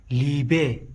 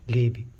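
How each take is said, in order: First: ليبي said libe, with a short i and a final e; ليبي as libe, the teacher's own way; our way of saying it. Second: ليبي said lebi, in the Arabic way with a final i; ليبي as lebi, the way Arabs say it; Arabic pronunciation. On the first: Teacher giving the class his own reading, libe. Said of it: "كما يقولون بالعربي ليبي". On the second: Teacher showing the class the Arabic form, lebi. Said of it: "كما يقولون بالعربي". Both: Shown as a demonstration.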